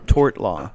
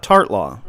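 First: "tort law" with the "or" vowel, as in torte; correct word tort. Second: "tart law" with the vowel of tart, like the pastry; wrong word tart. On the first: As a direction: say "tort law" with a clear "or" sound. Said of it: "Not tart law, tort law". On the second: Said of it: "Not tart law". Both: Shown as a demonstration.

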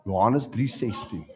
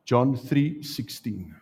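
First: "Johannes" said the Afrikaans way, yo-AH-nes; Afrikaans name. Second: Said in the usual way. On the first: Shown as a demonstration.

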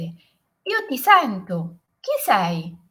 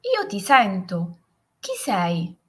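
First: Higher, louder, drawn-out echo; echoed call. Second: Slow, mildly raised call. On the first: Mountain voice answers the boy, echoed shout. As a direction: call it back slowly, like an echo. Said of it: "E la voce rispose". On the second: Boy calls to the unknown mountain voice, mild shout. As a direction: call out to an unseen voice, understated. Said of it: "il bambino urlò". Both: A narrator's reading.

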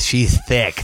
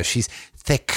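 First: "thick" with the opening TH leaned on; stress on TH in thick. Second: "thick" with a hard, drawn-out final K sound; stress on C in thick. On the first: Describing a woman to friends, stress on the TH of "thick". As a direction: lean into the first sound of "thick". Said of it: "you put the emphasis in the T H". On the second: Showing friends his preferred version, stress on the C of "thick". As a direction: hit and hold the CK ending of "thick". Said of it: "I like to put it in the C". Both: Shown as a demonstration.

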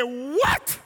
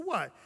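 First: Loud what, soaring up in pitch; shocked disbelief. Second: Soft, sweet little question; sweet reply. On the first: Wife hears husband is saved, astonished. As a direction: imitate a stunned wife's rising yelp. Wife drops broom at the news. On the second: Wife answering husband who tapped her, sweetly. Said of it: "looked at me so sweetly". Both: Retold or imitated.

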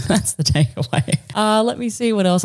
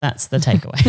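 First: Laughing. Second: Said in the usual way. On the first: Real, not acted.

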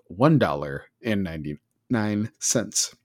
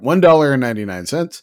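First: Slow, lower mock-emotional price reveal; mock choked up. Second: Louder, quick repeat of the price; mock amazement. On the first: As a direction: linger over the price as if overcome. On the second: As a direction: exclaim the price in pretend disbelief. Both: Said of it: "I'm getting choked up talking about it".

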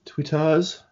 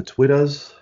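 First: "Twitters" higher, ending in an open "-ahz"; retry "Twitters" as "Twit-tahz", voice lifting; second try at Twitters. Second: "Twitters" said higher, with a short final "-ers"; attempt at Twitters. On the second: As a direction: say "Twitters" as a first casual attempt. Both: Real, not acted. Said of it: "I can never say Twitters properly".

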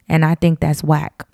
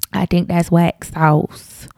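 First: Said in the usual way. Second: Slow, drawn-out Southern twang; a little Southern twang, unhurried. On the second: Real, not acted. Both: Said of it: "a Southern twang on my voice".

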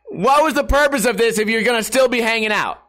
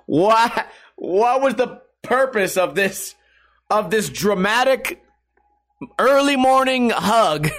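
First: Higher, punchier incredulous question with a hard stress on "What"; exasperated repeat. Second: Exasperated disbelief. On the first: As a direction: fire it off, fed up and laughing at the absurdity. Repeats the complaint more forcefully. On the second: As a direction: stretch every word like you can't believe it. Ranting about Tex's pointless hug. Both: Real, not acted.

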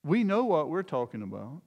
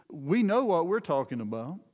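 First: "We" said first and strongest; "We" stressed to point at the believers. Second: "know" lifted with a rising tune; plain quote with "know" weighted; stress on know. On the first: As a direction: punch "We", meaning Jesus and the disciples. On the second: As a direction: lean on "know", not on "We". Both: Shown as a demonstration. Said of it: "the "we" here refers to Jesus".

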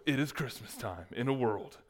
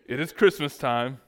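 First: Hushed take on a trailer voice-over; movie trailer announcer. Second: Loud, half-hearted trailer announcer; movie trailer announcer. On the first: Pastor retrying his mock movie trailer opening, understated announcer voice. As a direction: intone it like a nineties film trailer, more restrained. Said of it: "movie trailer announcer voice". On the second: Pastor opening a mock Christmas movie trailer, loud announcer attempt. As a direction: attempt a big movie-trailer voice, not very convincingly. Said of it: "not even a good movie trailer announcer voice". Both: Acted.

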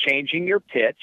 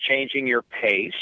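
First: Changing pitch. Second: Slow, stretched "changing your pace". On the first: Announcer explaining how to call the action, changing pitch. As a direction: pitch lifts then drops on "changing your pitch". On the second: Announcer explaining how to call the action, slowed pace. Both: Shown as a demonstration.

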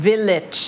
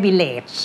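First: "Village" ending in a short, weak -idge; short -itch ending. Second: "village" with a full long AY in the last syllable; over-full last vowel on "village"; wrong - layt ending. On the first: Shown as a demonstration. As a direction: model "Village" with a brief i in the last syllable. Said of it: "ก็จะเป็นเสียง it". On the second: Retold or imitated. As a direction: mimic the mistake, vill-LAYT for "village". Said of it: "ไม่ใช่ village".

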